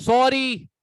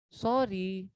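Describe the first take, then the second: First: sorry snapped loud and sharp; harsh sorry. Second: sorry said soft and low; a soft humble sorry; gentle sorry. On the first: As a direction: throw sorry out rudely, loud. (Sorry ज़ोर से रूखे लहजे में) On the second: (sorry धीमे, नरम लहजे में) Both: Shown as a demonstration. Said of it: "tone का फर्क आया".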